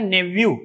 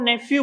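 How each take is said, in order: First: नेव्यू said with a v sound, nev-yoo; correct pronunciation. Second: नेफ्यू said with an f sound, nef-yoo; the everyday Indian mispronunciation नेफ्यू with f; common wrong pronunciation. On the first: Teacher giving students the right way to say nephew, v sound. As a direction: model the right नेव्यू, v not f. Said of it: "इसका right pronunciation होता है नेव्यू". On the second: Teacher showing students the wrong way to say nephew, f sound. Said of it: "इसको हम नेफ्यू बोलते हैं". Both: Shown as a demonstration.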